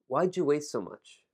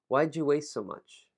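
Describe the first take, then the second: No difference in how they are said.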